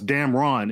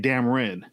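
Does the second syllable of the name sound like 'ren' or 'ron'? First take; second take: ron; ren. First: The second syllable has a full 'ron' vowel. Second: The second syllable has a reduced 'ren' vowel. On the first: This is how the name's owner says it. "I pronounce it like it sounds. Damron. It's R-O-N" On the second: This is how Southern speakers say it. "if you're from the South, you'll say Damren"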